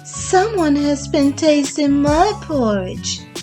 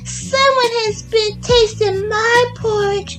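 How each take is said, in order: First: It is said in a medium-sized voice. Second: It is said in a small, high voice. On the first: "in a middle-sized voice" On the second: "in his little wee voice"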